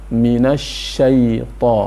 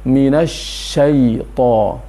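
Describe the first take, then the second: Both takes have the same delivery.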